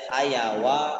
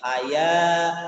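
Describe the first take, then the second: First: A w sound and extra vowel are added. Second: The vowel is lengthened with no w sound. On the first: The speaker calls it wrong. "tidak hayawa" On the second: The speaker calls it right. "itu hanya panjang saja haya"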